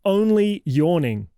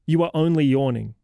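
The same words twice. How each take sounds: First: Slow, higher, louder mocking repeat of only yawning; incredulous echo. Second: Said in the usual way. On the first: Host mocks the kid's excuse, slow incredulous echo. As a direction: throw the kid's excuse back in disbelief.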